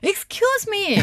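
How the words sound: It sounds sharp and warning.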